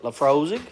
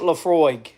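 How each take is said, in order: First: An S sound is heard before the last syllable. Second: No S sound is heard before the last syllable. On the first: "And I don't know if I'm saying that right" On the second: "Is the S silent?"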